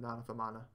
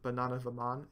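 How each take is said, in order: First: The second word ends with a final vowel. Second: The second word ends without a final vowel. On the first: The speaker calls it right. "it has to be ... the correct pronunciation" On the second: The speaker calls it wrong. "You wouldn't say"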